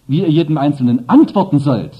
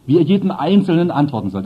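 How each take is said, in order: First: "antworten" hit hardest, falling after it; stress on antworten. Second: "jedem" hit hardest, rest of the phrase lighter; stress on jedem. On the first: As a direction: shift the weight onto "antworten". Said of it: "Aber die andere Betonung". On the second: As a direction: lean on the word "jedem" to show each person counts. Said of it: "Das ist also die Betonung darauf". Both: Shown as a demonstration.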